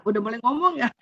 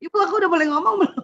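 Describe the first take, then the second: First: Said in the usual way. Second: Put-on high, rushed child's question; mock little kid, pitched up and hurried; imitating eager child. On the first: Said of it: "dia kode mata". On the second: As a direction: pipe up quickly like a child asking mother's permission. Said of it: "dia ngomong pakai mulut".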